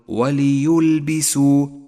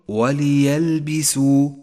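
First: The vowel after the y is 'u'. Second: The vowel after the y is 'a'. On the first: The speaker calls it wrong. "ولا تقل وليلبسوا فهو لحن جلي" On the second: The speaker calls it right. "قل وليلبسوا فالياء مفتوحة وليست مضمومة"

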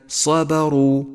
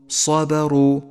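Both takes have the same delivery.

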